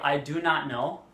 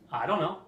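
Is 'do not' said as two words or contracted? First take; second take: two words; contracted. First: 'Do not' is said as two full words. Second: 'Do not' is contracted into one syllable. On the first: "you can say" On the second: "what most people uh, would probably say"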